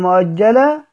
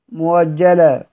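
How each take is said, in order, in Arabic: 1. الحرف الثاني همزة. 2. الحرف الثاني صوت واو.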